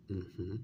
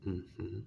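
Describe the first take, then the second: No difference in how they are said.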